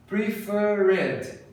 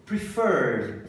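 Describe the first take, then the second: First: PREFERRED as pre-fer-RED, three syllables; wrong "Preferred" with an added "ed"; mispronounced extra syllable. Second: PREFERRED as two syllables, "pri-FURD"; "Preferred" with no extra ed syllable; correct pronunciation. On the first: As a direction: sound out the -ed in "Preferred", higher. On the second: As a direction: end "Preferred" straight on rd, lower. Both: Shown as a demonstration. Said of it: "Não".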